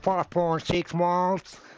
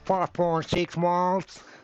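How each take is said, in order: First: It is said in a Texas accent. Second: The same.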